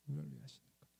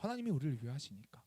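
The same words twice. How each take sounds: First: A much lower, softer repeat of the line; soft low echo. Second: Said in the usual way. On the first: Shown as a demonstration. 아이들에게 낮고 부드럽게 되뇌는 목사님. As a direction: pastor echoes the promise softly to the kids, low and soft.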